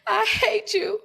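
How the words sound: The voice sounds tearful, as if crying.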